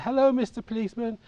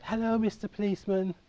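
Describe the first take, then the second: First: Put-on high, hopeful little-boy hello; imitating himself as a small boy after a coin; child's eager greeting. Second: Put-on high, bright little-boy hello; imitating a small boy greeting the bobby; child's eager greeting. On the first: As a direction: pitch it up, sweet and expectant. Boy greets officer hoping for money. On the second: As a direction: sing it up like an eager young kid.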